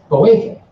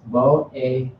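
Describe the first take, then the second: First: Boefe stressed on its middle syllable; stress inside boefe. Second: Boefe drawn out slowly onto its last syllable; stress ending boefe. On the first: Teacher models first version for class, middle-stressed boefe. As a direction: lift the middle syllable of boefe, then let go. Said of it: "there's one version". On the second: Teacher models second version for class, end-stressed boefe. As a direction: lean long on the end of boefe. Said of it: "then there's this version". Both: Shown as a demonstration.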